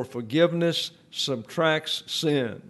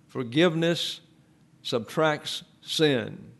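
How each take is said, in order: First: Said in the usual way. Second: Slow, each word spaced out and weighted; slow emphatic repeat. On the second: Shown as a demonstration. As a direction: spell it out slowly, like a rule to memorise.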